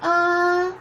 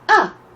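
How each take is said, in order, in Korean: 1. 높은 음에서 평평하게 유지돼요. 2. 급하게 떨어지고 딱 끊겨요. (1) "일성부터 사성까지 연결해서 해보면" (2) "사성은 이렇게 내려옵니다. 딱 끊어야 돼요"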